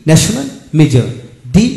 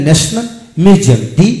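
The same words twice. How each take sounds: The two takes are said the same way.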